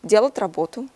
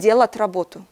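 Both takes have the same delivery.

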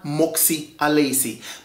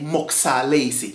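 First: The two words are said fully and separately. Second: The two words are contracted into one.

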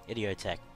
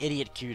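First: The name ends with a 'tek' sound. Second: The name ends with a 'kew' sound. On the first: The speaker calls it right. "It's pronounced Idiotech" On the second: The speaker calls it wrong. "It looks like Idiot Q to me"

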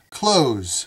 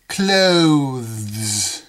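First: The word is said with no 'th' sound before the final 's'. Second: The word is said with a 'th' sound before the final 's'. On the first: "We don't pronounce the T-H. We pronounce that word just like this word. Close" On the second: "in some parts of the world, they probably pronounce that word like this"

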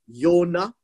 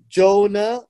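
First: The name begins with a Y sound. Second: The name begins with a J sound. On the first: "that's how you pronounce it" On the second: "Jonah is actually a Greek name"

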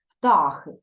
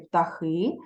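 First: The stress is on the first syllable. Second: The stress is on the last syllable. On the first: The poet shifted the stress to fit the rhyme. "письменниця використала наголос птахи" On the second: This is the standard stress of the word. "правильно казати птахи"

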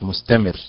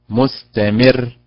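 First: The stress falls on the middle syllable. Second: The stress falls on the final syllable. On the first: The speaker calls it wrong. "وليست مستمر" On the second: The speaker calls it right. "هكذا مستمر ... لأن النبرة على حركة الميم"

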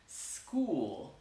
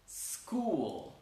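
Both takes have the same delivery.

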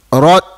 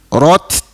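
First: The final t ends without any audible air release. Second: The final t ends with an audible puff of air. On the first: The speaker calls it wrong. "Kalau tak keluar dia jadi rot rot" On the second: The speaker calls it right. "bunyi angin yang terlepas daripada makhraj huruf"

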